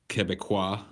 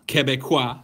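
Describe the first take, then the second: First: Said in the usual way. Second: "Quebecois" louder and higher, French vowel /kɛbɛkwɑ/; "Quebecois" with a French ring. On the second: Shown as a demonstration. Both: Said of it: "You sound like a Quebecois".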